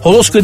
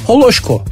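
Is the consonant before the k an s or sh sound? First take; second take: s; sh. First: The consonant before k is a plain s sound. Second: The consonant before k is an sh sound. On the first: The speaker calls it wrong. "Holosko değildi ki herifin adı" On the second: The speaker calls it right.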